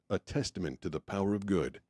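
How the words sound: The emphasis falls on the word testament. "Is testament the most important thing"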